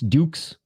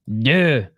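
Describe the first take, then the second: First: The name ends with a consonant sound. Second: The name ends on a bare vowel. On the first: The speaker calls it wrong. "not Dukes" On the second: The speaker calls it right. "No, it's Duh"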